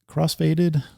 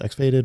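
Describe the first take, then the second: First: The first part is said as cross. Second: The first part is said as ex. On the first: "I'm going to pronounce it the X as cross" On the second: "maybe it's X-Faded"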